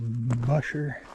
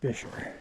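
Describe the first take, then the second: First: The first vowel is unlike the vowel in fish. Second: The first vowel is like the vowel in fish. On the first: The speaker calls it wrong. "a lot of people try to pronounce it Busher" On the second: The speaker calls it right. "It's pronounced Bisher. Like Fisher, but with a B"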